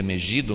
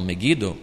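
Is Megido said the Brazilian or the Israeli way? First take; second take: Brazilian; Israeli. First: It is pronounced the Brazilian Portuguese way. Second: It is pronounced the way locals in Israel say it. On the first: This is how Brazilians say the name. "a gente pronuncia Megido" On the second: This is how people in Israel say the name. "mas eles falam Megido"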